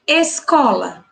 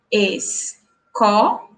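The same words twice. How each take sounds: First: Said in the usual way. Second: "escola" stretched slowly as es-co-la; slow syllable by syllable. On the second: Shown as a demonstration. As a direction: spell out "escola" one syllable at a time, slowly. ("escola" bem pausada, es-co-la, devagar) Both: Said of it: "pronunciar a palavra de forma pausada".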